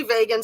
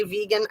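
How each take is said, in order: First: "vegan" with first syllable rhyming with "day"; "vegan" as VAY-gun. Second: "vegan" with first syllable rhyming with "see"; "vegan" as VEE-gun. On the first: Host shows viewers how some people say it, "vegan" as VAY-gun. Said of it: "Some people say vegan". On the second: Host shows viewers the other way, "vegan" as VEE-gun. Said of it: "some people say vegan". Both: Shown as a demonstration.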